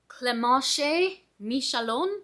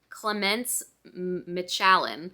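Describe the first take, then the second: First: The name is pronounced with French sounds. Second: The name is pronounced with English sounds. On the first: "I'm only saying this like that because I listened to the audiobook" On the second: "I literally looked at the name and I'm like"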